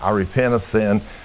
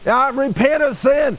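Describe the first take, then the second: First: It is said at a calm, ordinary level. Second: It is said louder, with a raised, forceful tone. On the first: The speaker is not yet desperate. "Before, when I'm saying" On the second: The speaker is growing desperate and insistent. "only my tone and my level is getting a little elevated"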